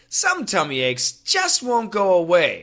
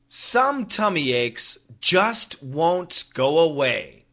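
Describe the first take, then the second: First: It is read at a normal speed. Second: It is read slowly and carefully. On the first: "The second time, normal speed" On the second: "The first time, nice and slow"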